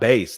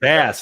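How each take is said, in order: First: The vowel is long, rhyming with 'face'. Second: The vowel is short, rhyming with 'mass'. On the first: This is the word for a low singing voice. The speaker calls it wrong. "not Bass, dude" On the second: This is how the person's name is said. The speaker calls it right. "his name is Bass"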